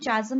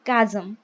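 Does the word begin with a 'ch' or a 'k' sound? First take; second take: ch; k. First: The word begins with a 'ch' sound. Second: The word begins with a 'k' sound. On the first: The speaker calls it wrong. "इसका pronunciation चाजम नहीं होगा" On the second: The speaker calls it right. "इसका pronunciation होगा कैजम"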